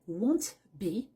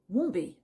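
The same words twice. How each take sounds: First: The t of won't is pronounced. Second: The t of won't is dropped. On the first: The speaker calls it wrong. "au lieu de dire won't be" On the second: The speaker calls it right. "dis plutôt won't be, c'est-à-dire sans prononcer le T de won't"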